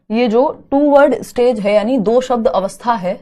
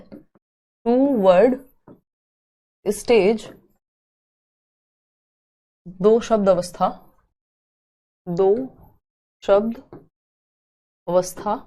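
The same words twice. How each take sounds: First: Said in the usual way. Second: टू word stage, दो शब्द अवस्था spaced out word by word, softer; slow dictation. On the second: Shown as a demonstration. Teacher dictating the term for notes, slow and softer. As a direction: dictate it slowly so students can write.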